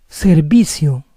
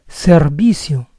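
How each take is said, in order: No difference in how they are said.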